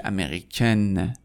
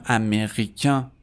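First: امریکن ending in a clearly sounded N; French feminine امریکن with full final n; non-nasal ending. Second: امریکن ending in a nasal vowel, no N heard; French masculine امریکن with nasalized final vowel. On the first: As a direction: end امریکن on "-ken", vowel out of the nose. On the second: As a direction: end امریکن through the nose, silent n. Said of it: "به خاطر اینکه توی بینیه". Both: Shown as a demonstration.

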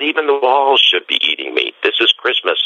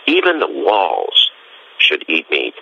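First: High, ringing exclamation; excited proclamation. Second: "Even the walls" drawn out slowly, "Even" stressed; slow emphatic stress. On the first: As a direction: proclaim it with joy. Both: Retold or imitated. Francis proclaims at Christmas.

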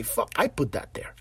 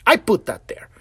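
First: Softly, under the breath, owning the mess; a low, quiet confession to yourself; quiet admission. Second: Louder, firmly claiming it: "I put that there"; firm admission. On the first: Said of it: "owning it, said softly". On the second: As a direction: stand up and own it out loud. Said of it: "repeats the admission louder". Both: Shown as a demonstration.

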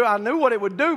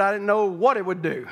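First: Said in the usual way. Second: WHAT leaned on for comic contrast; stress on WHAT. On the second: Real, not acted. Preacher hinting at the hot shot's surprise, stress on WHAT. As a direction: lean knowingly on the word WHAT. Contrasts knowing with not really knowing.

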